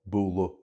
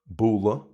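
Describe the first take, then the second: First: The word ends in a back u vowel. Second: The word ends in a neutral schwa vowel. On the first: This is the Mayo way of saying it. "in Mayo that's U" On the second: This is the Munster way of saying it. "as you can just hear in Munster, A D H at the end is pronounced as uh, as a schwa"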